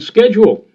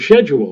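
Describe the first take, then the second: First: It begins with an sk sound, American style. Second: It begins with an sh sound, British style.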